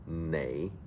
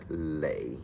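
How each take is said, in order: First: The word begins with an N sound. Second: The word begins with an L sound. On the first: The speaker calls it right. "in Cantonese is pronounced nei" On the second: The speaker calls it wrong. "sometimes it's been mispronounced as lei"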